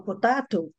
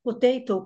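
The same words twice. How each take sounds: First: Potato with a flat "a", po-TA-to; "potato" dito à britânica, com "a" aberto; British potato. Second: Potato with an American "ei", po-TEI-to; "potato" dito à americana, com "ei". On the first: ("potato" com sotaque britânico) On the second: ("potato" com sotaque americano) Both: Shown as a demonstration. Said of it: "por exemplo".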